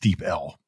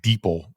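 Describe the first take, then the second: First: The name is said as Deep plus letter L. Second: The name is run together as one syllable. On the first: The speaker calls it right. "It's Deep L" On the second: The speaker calls it wrong. "I think I pronounced the company Deepl before"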